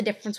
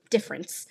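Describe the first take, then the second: First: Said in the usual way. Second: "difference" in a British-style accent; other accent. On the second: Shown as a demonstration. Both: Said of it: "An accent is the difference between".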